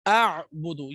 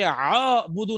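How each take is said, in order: First: A glottal start is followed by a throat ain sound. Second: A single long vowel with no throat sound. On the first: The speaker calls it right. "आ आइन दोनों साउंड आएंगे" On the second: The speaker calls it wrong. "ये आबुदु ना नहीं होना चाहिए"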